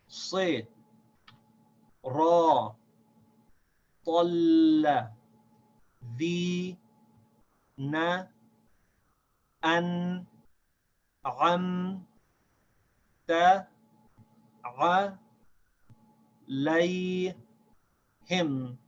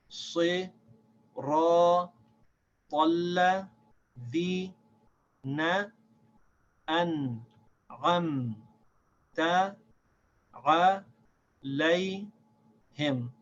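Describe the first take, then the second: First: It is read slowly, syllable by syllable. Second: It is read a little faster.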